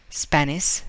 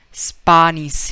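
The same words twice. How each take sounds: First: Said in the usual way. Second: Put-on "Spanish" said spah-neesh, louder, Spanish accent; "Spanish" as spahnish in a Spanish accent. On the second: Teacher imitating Spaniard, Spanish accent. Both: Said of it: "he might would say like that".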